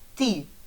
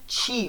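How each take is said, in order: First: The t is a plain, hard t sound. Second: The t softens like the Portuguese 'tia'. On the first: The speaker calls it right. "vai ter som sempre de T" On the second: The speaker calls it wrong. "Não é ti, como tia no português"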